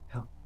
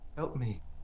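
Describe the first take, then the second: First: It is said faintly and quietly. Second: It is said somewhat louder.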